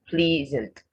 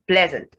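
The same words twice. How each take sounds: First: The first vowel is a long 'ee' sound. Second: The first vowel is a short 'eh' sound. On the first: The speaker calls it wrong. "not pleasant" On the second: The speaker calls it right. "It takes the eh sound"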